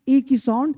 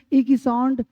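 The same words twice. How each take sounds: The two takes are said the same way.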